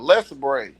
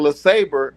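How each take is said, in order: First: The name ends with a 'bray' sound. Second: The name ends with a 'bruh' sound. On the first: "a Les Bray" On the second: "we used to call the motherfucker Le Sabre"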